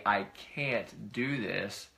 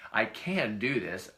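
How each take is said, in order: First: "can't" stretched slowly; slow, weighty "I can't do this"; drawn-out CAN'T. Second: "can" leaned on, slow and deliberate; slow, affirming "can"; stress on CAN. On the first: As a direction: dwell on the word "can't" as the thing not to say. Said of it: "instead of saying". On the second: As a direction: put the weight on "can". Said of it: "because that's a can". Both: Shown as a demonstration.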